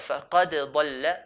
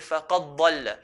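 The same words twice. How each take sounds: First: The d and following consonant both sound distinct. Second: The d sound merges into the following consonant. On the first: The speaker calls it right. "but فَقَدْ ضَلَّ" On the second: The speaker calls it wrong. "we don't say فَقَدْ ضَلَّ. We don't merge the dal onto the dad"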